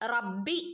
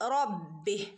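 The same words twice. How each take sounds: First: The opening r sound is light and thin. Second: The opening r sound is heavy, like ro. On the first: The speaker calls it wrong. "ഇവിടെ റബ്ബി എന്ന് ഓതരുത്" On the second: The speaker calls it right. "റോ എന്നുള്ള ഉച്ചാരണമാണ് കൊടുക്കേണ്ടത്"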